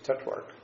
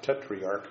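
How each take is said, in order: First: The word is said with two syllables. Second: The word is said with three syllables. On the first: The speaker calls it right. "We don't have that third syllable in there" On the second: The speaker calls it wrong. "it's not tetriarch"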